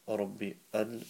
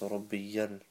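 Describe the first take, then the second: First: The y sound after Rabbi is dropped. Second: A clear y sound follows Rabbi. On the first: The speaker calls it wrong. "it's not Rabbi al" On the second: The speaker calls it right. "The ya has to be pronounced, it's Rabbi yell"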